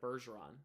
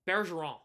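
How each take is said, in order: First: The name is said with English pronunciation. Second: The name is said with French pronunciation. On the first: The speaker calls it right. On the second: The speaker calls it wrong.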